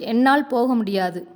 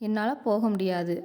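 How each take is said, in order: First: The sentence is said loudly and forcefully. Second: The sentence is said softly and gently. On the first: The speaker refuses to go. "நம்ம ஓங்கி சொல்லும்போது" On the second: The speaker is unable to go. "மென்மையாக சொல்லுதோம்"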